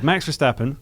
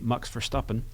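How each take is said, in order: First: The name is said with an English pronunciation. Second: The name is said with a Dutch pronunciation. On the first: The speaker calls it wrong. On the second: The speaker calls it right.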